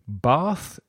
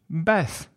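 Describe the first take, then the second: First: The vowel is long, as in British speech. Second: The vowel is short, as in American speech. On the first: "pronounced with a long R in British English" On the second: "with a short A in American English"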